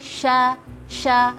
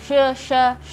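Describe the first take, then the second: First: The sh sound is clear with strong airflow. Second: The sh sound is weak with little air. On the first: The speaker calls it right. "lebih jelas" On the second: The speaker calls it wrong. "udaranya kurang uh, keluar"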